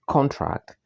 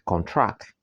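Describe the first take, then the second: First: It has the stress pattern of the noun. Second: It has the stress pattern of the verb. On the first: The word is a noun. "the noun is contract" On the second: The word is a verb. "the verb is contract"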